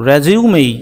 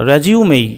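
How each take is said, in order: No difference in how they are said.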